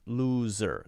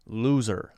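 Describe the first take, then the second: No difference in how they are said.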